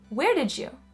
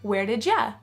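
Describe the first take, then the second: First: 'Did' and 'you' run together into one sound. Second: 'You' is weakened to a short 'ya'. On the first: "another case of connected speech" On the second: "Or you can also say"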